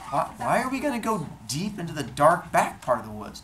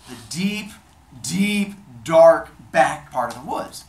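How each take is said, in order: First: Higher, hesitant wife's question; puzzled questioning. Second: Loud, slow, word-by-word build; scheming emphasis. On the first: Wife questions the odd plan. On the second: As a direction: dwell heavily on each ominous word. God lures her to remote woods. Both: Acted.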